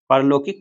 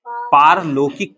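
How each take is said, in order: First: The first vowel is a short 'a'. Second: The first vowel is a long 'aa'. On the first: The speaker calls it wrong. "परलौकिक पढ़ते नहीं" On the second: The speaker calls it right. "पारलौकिक पढ़ते हैं ... अ की जगह आ आएगा"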